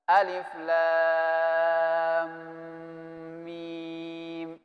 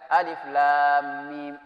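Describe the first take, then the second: First: The letter sounds are held long before moving on. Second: The letters are read quickly without holding. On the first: The speaker calls it right. "Jadi mesti ditahan" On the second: The speaker calls it wrong. "Jangan asal ketemu baca alif lam mim, itu salah"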